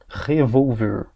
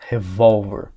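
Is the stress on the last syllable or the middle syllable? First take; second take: last syllable; middle syllable. First: The stress is on the last syllable. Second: The stress is on the middle syllable. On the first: It means to stir or turn over. "Revolver é uma oxítona terminada em R" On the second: It means a handgun. "A sílaba tônica estava aqui. Ver. Eu passei ela para cá"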